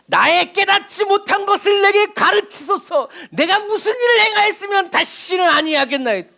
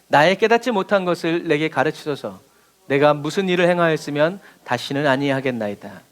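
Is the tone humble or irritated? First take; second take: irritated; humble. First: It is said in an irritated, defiant tone. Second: It is read in a plain, humble tone.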